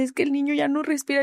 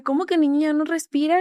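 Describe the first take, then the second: First: Said in the usual way. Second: Higher, rising incredulous echo of "respira"; mother repeating the news, stunned; shocked disbelief. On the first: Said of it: "Y me dice". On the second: Retold or imitated. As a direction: throw the words back in disbelief. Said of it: "Le dije".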